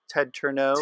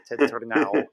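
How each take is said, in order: First: The surname is said the family way. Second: The surname is said the Czech way. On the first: This is how the family says the name. "I was raised with" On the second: This keeps Czech listeners from misspelling the name. "in the Czech Republic, if I say that, they misspell my name, so I have to go"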